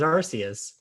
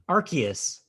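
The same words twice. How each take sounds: First: The C is said as a soft S sound. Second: The C is said as a hard K sound. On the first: This is how it was always read before. "I always read it as Arceus" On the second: This is the official pronunciation. "the video pronounced it with a hard C"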